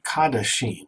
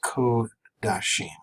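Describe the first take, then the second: First: The first vowel is an 'a' sound. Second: The first vowel is a long 'o' sound. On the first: The speaker calls it wrong. "what looks like Kadashim" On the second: The speaker calls it right. "is pronounced as a long O"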